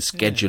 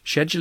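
First: The word is said with an American pronunciation. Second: The word is said with a British pronunciation. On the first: "schedule is American" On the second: "Schedule is British"

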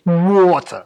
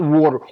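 First: It is said with a New Jersey accent. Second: It is said in a plain, general accent.

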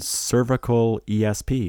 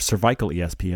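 First: Cervical is pronounced the American way. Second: Cervical is pronounced the British way.

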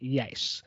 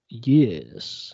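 First: It is said in a plain, ordinary voice. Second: It is said in an imitated, put-on voice. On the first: "he wouldn't just say yes" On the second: "forgive my impersonation"

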